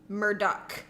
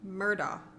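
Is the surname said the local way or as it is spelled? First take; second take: local; as spelled. First: The surname is pronounced the local way. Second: The surname is pronounced as it is spelled. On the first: The speaker calls it right. "in South Carolina, ... So it is Alec Murdoch" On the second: The speaker calls it wrong. "say it like it's spelled"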